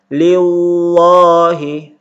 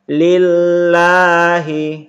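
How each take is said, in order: First: The 'l' is said thick and heavy. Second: The 'l' is said thin and light. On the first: The speaker calls it wrong. "jangan dibaca" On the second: The speaker calls it right. "tapi dibaca tipis"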